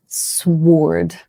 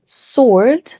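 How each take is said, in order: First: Sword with the W sounded, SWORD; wrong sword. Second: Sword said slowly as SORD, silent W; correct sword. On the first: Teacher shows the mistaken sword. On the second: Teacher models the right sword. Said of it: "So we say". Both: Shown as a demonstration.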